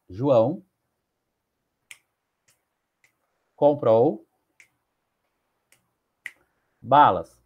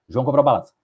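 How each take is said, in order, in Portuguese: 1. A frase é arrastada, dita muito devagar. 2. A frase é dita muito rapidamente. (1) "posso ler ela em dez segundos" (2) "posso ler em um segundo"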